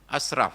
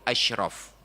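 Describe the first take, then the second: First: The middle consonant is a plain s sound. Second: The middle consonant is a sh sound. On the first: The word means wasteful, calling the Prophet the most extravagant. The speaker calls it wrong. "Asraf bukan Nabi" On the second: The word means the most noble. The speaker calls it right. "Padahal Nabi itu asyraf. Nabi yang paling mulia"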